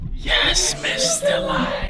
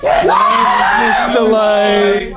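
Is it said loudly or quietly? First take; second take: quietly; loudly. First: It is said quietly. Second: It is said loudly.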